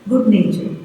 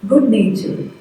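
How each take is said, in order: Both takes have the same delivery.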